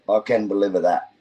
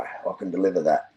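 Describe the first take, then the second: First: "can" pushed up and leaned on; stress on can. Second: Said in the usual way. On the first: Shown as a demonstration. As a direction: hit the word "can".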